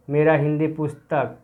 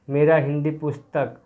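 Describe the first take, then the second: No difference in how they are said.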